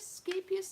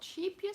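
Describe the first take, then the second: First: The word begins with an 'sk' sound. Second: The word begins with an 'sh' sound. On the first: The speaker calls it right. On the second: The speaker calls it wrong. "Not sheepious"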